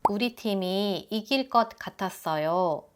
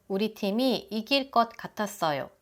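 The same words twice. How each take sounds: The two takes are said the same way.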